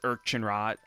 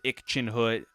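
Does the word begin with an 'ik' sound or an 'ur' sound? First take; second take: ur; ik. First: The word begins with an 'ur' sound. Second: The word begins with an 'ik' sound. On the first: "Another Google site says" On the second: "Google says"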